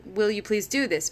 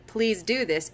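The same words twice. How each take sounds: First: Asking request. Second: Firm instruction falling at the end; directive. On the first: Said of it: "you're saying". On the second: Teacher giving a student an instruction, firmly. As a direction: state it, don't ask. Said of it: "it's a directive". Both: Shown as a demonstration.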